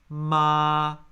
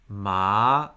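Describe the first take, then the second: First: The syllable is said with the first tone. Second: The syllable is said with the second tone.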